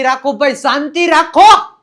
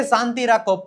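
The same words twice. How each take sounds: First: Acted shout for silence. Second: Said in the usual way. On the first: Acts out demanding silence. (શાંતિ માટે મોટેથી બૂમ)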